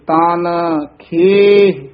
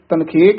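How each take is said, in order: First: The two words are kept apart as separate. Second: The two words are run together as one. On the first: The speaker calls it right. "ਨਖੇਰ ਕੇ ਪੜੇ ਜਾਣਗੇ" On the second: The speaker calls it wrong. "ਦੋਹਾਂ ਪਦਾਂ ਨੂੰ ਇਕੱਠਾ ਕਰ ਦਿੰਦੇ ਹਨ"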